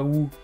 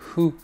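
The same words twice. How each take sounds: First: It starts with a pronounced w sound. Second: It starts with an h sound, no w. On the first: The speaker calls it wrong. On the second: The speaker calls it right.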